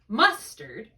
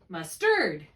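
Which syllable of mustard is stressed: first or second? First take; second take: first; second. First: The stress is on the first syllable. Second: The stress is on the second syllable. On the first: "on the left side you have an accent on M U S" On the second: "on the right side you put the accent over here on the second syllable"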